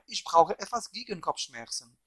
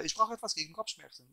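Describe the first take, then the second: First: Measured German with a careful accent. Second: Quick, rattled-off German sentence; very fast German. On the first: Showing viewers the phrase with an accent, deliberate German accent. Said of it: "German accent". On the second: Showing viewers how fast he speaks languages, rapid-fire German. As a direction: race through the German phrase. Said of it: "if I speak it very fast, my accent is gone". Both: Shown as a demonstration.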